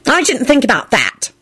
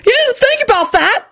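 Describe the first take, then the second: First: Pitched-up haughty admission. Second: Very high-pitched outraged yell; yelled disbelief. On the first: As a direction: admit it with a haughty air. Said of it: "Dorcas sniffed haughtily". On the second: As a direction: throw it back as an outraged question. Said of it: "Alex yelled". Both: A narrator's reading.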